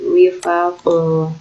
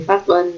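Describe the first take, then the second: First: The word ends on a plain vowel. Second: The word ends with an n sound. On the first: The speaker calls it right. "tapi wifaqo" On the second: The speaker calls it wrong. "bukan wifaqon"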